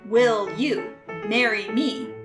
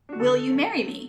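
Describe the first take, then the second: First: Each word is said separately with pauses. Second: It is said as one smooth question.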